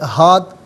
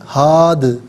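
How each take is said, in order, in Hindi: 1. आखिरी d बिना गूंज के सपाट रुकता है। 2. आखिरी d गूंजती उछाल के साथ खत्म होता है। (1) "ये गलत है" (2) "इस तरीके से पढ़ा जाएगा कि आवाज़ लौटती भी महसूस हो"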